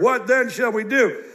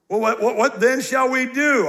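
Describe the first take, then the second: First: What then shall we do? with every word pressed a little, as if underlined; stress on each word. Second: Said in the usual way. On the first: Shown as a demonstration. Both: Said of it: "I underline each word".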